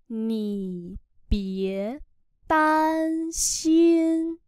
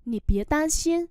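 First: Very slow drawn-out teaching pronunciation; slow syllable-by-syllable model. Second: Said in the usual way. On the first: Shown as a demonstration. Teacher models Chinese phrase for learners, very slowly. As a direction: stretch each syllable, pause between them.

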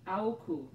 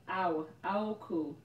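First: "aoku" clipped short with a falling end; second try at the name. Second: "aoku" drawn out slowly, falling at the end; sounding out the name. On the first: Retrying a viewer's name, saying "aoku" short and quick. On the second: Sounding out a viewer's name, slowly stretching "aoku". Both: Shown as a demonstration. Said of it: "Am I saying it right?".

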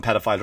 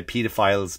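First: "pedophiles" with short e, PED-uh-files; American-style pronunciation. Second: "pedophiles" as PEE-duh-files; Irish pronunciation. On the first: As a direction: say "pedophiles" starting like the word "ped". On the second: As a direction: say "pedophiles" with a long ee up front. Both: Shown as a demonstration. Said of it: "in Ireland we say pedophiles".

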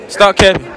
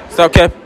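The two takes are said the same way.

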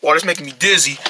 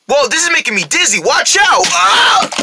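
First: Said in the usual way. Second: High, rising panicked cry; dizzy alarm. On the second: Acted. Rabbit spinning out of control, alarmed. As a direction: cry out higher and higher to a yelp.

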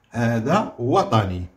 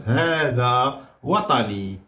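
First: Said in the usual way. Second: هذا slow and weighted, وطني light; stress on هذا. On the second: Shown as a demonstration. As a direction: lean on هذا, slowly. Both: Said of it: "أيوة، واحد ومفرد".

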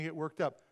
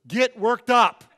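First: Said in the usual way. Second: Much louder, higher punched yell; exasperated mock shout. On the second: Husband demanding his calm wife react, exasperated shout. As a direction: bellow it like a fed-up husband.

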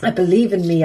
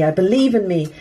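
First: "I" pushed forward, falling on "I believe in me"; stress on I. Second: "believe" hit hardest, tune falling after it; stress on believe. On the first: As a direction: lean on the word "I". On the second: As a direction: lean on "believe". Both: Real, not acted. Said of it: "pep talk to herself".

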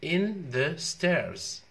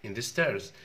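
First: IN said high, stretched very slowly; stressed "In the stairs". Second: Said in the usual way. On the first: Shown as a demonstration. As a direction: lean hard on "In" and draw it out. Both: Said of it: "أفرش أسناني وين؟".

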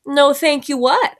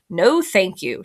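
First: Higher, slow question with rising end; playing dumb. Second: Said in the usual way. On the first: A narrator's reading. Child answers Emma's refusal, playing dumb. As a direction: draw out NO, THANK YOU WHAT, feigning puzzlement. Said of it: "I said, playing dumb".

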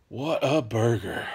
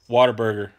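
First: "What a burger" said slowly, each word separated; drawn-out "What a burger". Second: Said in the usual way. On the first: Shown as a demonstration. Savouring the chain's name.

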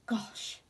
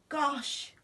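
First: Breathless whispered gosh. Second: Much higher, louder startled gosh; shocked exclamation. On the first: Narrator gasps at the heat. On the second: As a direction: cry Gosh out in alarm. Shocked by reflection. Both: Acted.

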